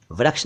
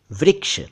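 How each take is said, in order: First: वृक्ष said as "vraksh"; an a vowel after vr in वृक्ष; mispronounced वृक्ष. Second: वृक्ष said higher as "vriksh"; short i after vr in वृक्ष; correct pronunciation. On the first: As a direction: turn वृक्ष into व्रक्ष. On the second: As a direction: model वृक्ष with "ri", not "ra". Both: Shown as a demonstration. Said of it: "वृक्ष नहीं".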